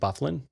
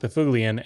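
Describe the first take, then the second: First: The surname is squeezed into fewer syllables. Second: The surname is said with all its syllables. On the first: This is the lazy version sports commentators used. The speaker calls it wrong. "announcers couldn't be bothered, so they just pronounced it Bufflin" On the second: This follows the family's Norwegian origin. The speaker calls it right. "it's pronounced Bafuglian"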